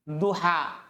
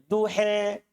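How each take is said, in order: First: The final vowel is an open a sound. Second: The final vowel leans toward an e sound.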